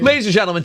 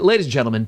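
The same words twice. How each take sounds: First: It is said in a put-on announcer voice. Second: It is said in the speaker's normal voice.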